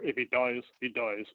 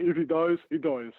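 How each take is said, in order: First: Badly attempted Russian accent; a weak stab at a Russian movie-villain accent; Drago's terrible accent. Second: Louder second attempt at a bad Russian accent; Drago accent retry. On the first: Podcast guest quoting a Rocky Four line, terrible Russian accent. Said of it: "that was a terrible accent". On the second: Guest retrying the movie line after botching it, hammed-up Russian accent. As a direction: push harder on the mock Russian accent. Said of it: "Can't get a fucking accent right".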